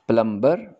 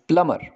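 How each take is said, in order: First: The b sound is pronounced after the m. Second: The b sound is silent after the m. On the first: The speaker calls it wrong. "It is not प्लम्बर" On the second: The speaker calls it right. "बी इसका silent है"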